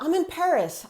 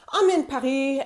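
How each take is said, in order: First: Paris is said with an English accent. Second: Paris is said with a French accent. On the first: "you're a native English speaker and you're speaking English" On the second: "Or do you do something like"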